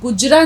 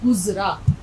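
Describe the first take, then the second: First: The middle consonant is a 'j' sound. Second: The middle consonant is a buzzing 'z' sound. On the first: The speaker calls it wrong. "ये गुजरा नहीं है" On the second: The speaker calls it right. "गाफ़, ज़े, रे, अलिफ़, गुज़रा"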